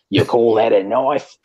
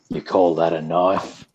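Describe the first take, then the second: First: It is said in a put-on Australian accent. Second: It is said in the speaker's ordinary accent. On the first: The speaker calls it right. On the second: The speaker calls it wrong.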